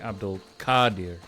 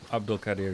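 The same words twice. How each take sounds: First: The A in Qadir is drawn out long. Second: The A in Qadir is kept short.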